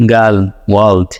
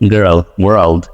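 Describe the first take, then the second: First: গার্ল and ওয়ার্ল্ড said flat and short, "gal, wal"; গার্ল ওয়ার্ল্ড like Bangladeshi learners; Bengali-style girl world. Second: গার্ল ওয়ার্ল্ড with curled American r, in a lower voice; American accent. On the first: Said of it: "আমরা কি বলি?". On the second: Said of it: "আর ওরা বলে কি?". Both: Shown as a demonstration.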